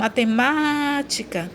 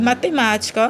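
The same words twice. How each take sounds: First: Matemática with the MÁ stretched long; stress on MÁ. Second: Said in the usual way. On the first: Shown as a demonstration. Teacher showing the antepenultimate is tonic, MÁ drawn out in matemática. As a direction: hold the MÁ before "tica" in matemática. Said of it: "também é a antepenúltima".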